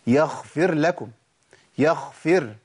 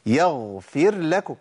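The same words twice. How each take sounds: First: "يغفر" said as "يخفر"; ghain turned kha. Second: "يغفر" with a voiced, breathless غ; slow "يغفر", no air on غ; correct voiced ghain. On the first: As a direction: breathe the غ of "يغفر" into خ. ("يغفر" بخاء بدل الغين) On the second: ("يغفر" بغين مجهورة) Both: Shown as a demonstration. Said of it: "بنسمع كتير".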